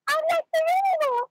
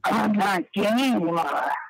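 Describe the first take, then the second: First: It is said in a Mickey Mouse voice. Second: It is said in a Latina old lady voice.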